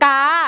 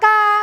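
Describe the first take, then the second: First: It is said with the plain, unmarked tone. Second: It is said with the mai tri tone.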